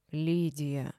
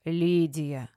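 First: Hesitant, lowered address; unsure. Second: Stern rebuke by name. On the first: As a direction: say the name tentatively. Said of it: "неуверенно сказала Рима Марковна". (неуверенно) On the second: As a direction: call her to order firmly. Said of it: "строгим голосом сделала мне замечание". (строгим голосом) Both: A narrator's reading.

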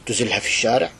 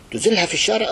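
First: Said in the usual way. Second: Repeated much higher and louder; outraged shout. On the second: Shown as a demonstration. Preacher denouncing the tyrant to the crowd, outraged shout. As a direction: cry it out in outrage.

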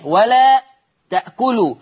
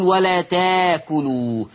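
First: ولا تأكلوا with the hamza in تأكلوا clearly sounded. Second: تاكلوا said slowly, the hamza replaced by a long a; Warsh reading, slow. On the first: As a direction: say تأكلوا with a glottal stop, ولا a bit raised. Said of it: "الهمزة الساكنة دي قبلها إيه". (نطق تأكلوا بالهمزة) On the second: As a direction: drag out ولا تاكلوا with a long alif, no hamza. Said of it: "عشان كده ورش يقول". (قراءة ورش ببطء: تاكلوا بالألف) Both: Shown as a demonstration.

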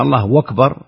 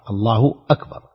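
First: الله أكبر run together as Allahu-wakbar, a w sound where the hamza of أكبر should be; الله وكبر بتسهيل الهمزة واوا; takbir with a waw. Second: الله أكبر with the hamza of أكبر cut cleanly, a glottal stop before أكبر; الله أكبر بهمزة قطع واضحة; correct takbir. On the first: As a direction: glide الله into أكبر with a waw, no glottal stop. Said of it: "إذا كان الإنسان يستطيع أن يقول الله أكبر". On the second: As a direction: say الله أكبر keeping الله and أكبر apart with a clear hamza. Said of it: "وأكبر الهمزة مقطوعة، همزة قطع". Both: Shown as a demonstration.

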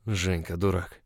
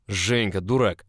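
First: Slightly husky, subdued scolding; hoarse murmured reproach. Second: Loud, emphatic outburst; alarmed scolding cry. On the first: Lover hugged back in an embrace, a touch hoarse. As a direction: say it hoarsely, without shouting. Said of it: "произнёс хрипло мой бог". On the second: Boss grabbing him from spilled boiling water, alarmed shout. Alarmed embrace after the kettle falls. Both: A narrator's reading.

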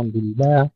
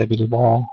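First: بالباء with a thin, front A after B; light, thin vowel in بالباء. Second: بالباء with a dark, back A after B; heavy, rounded vowel in بالباء; wrongly heavy ba. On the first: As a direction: keep the B of بالباء unthickened. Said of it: "ترقيق الباء". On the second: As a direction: thicken the B in بالباء. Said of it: "ليس". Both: Shown as a demonstration.

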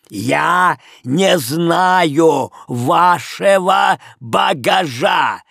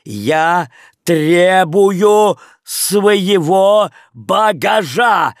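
First: «Я не знаю вашего багажа!» очень медленно, громко, по слогам; передразнивая чеканку «багажа»; скандируя по слогам. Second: «Я требую своего багажа!» очень медленно, громко, ударяя каждый слог; чеканить «багажа» по слогам, внушительно; скандируя по слогам. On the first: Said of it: "тем же манером отвечал хозяин". (хозяин отвечает тем же манером, скандируя) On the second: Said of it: "проскандировал с ударением на каждом слоге". (Леон требует багаж, скандируя каждый слог) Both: Acted.

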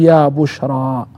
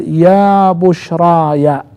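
First: Slow "يا بشرى" ending on a long -a with no -ya; reading ya bushra. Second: Slow, drawn-out "يا بشرايا" ending in -aya; reading ya bushraya. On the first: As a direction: recite "يا بشرى" plainly, ending on the long alif. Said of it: "والقراءة الثانية قرأ عاصم وحمزة والكسائي". (قراءة "يا بشرى" بالألف دون ياء) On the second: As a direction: recite "يا بشرايا" with the possessive -aya, lengthened. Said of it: "القراءة الأولى قرأ ابن كثير". (قراءة "يا بشرايا" بمدّ وياء الإضافة) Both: Shown as a demonstration.

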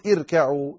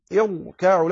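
First: "اركعوا" with a light, thin ra; wrong light ra. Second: "يركعوا" with a heavy, full ra. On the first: Teacher warning against this, "اركعوا" with a light ra. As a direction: say "اركعوا" with the ر thinned. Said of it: "لا تقل". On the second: Teacher showing how to begin the word, "يركعوا" with heavy ra. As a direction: thicken the ر in "يركعوا". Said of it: "لا ترققها". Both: Shown as a demonstration.

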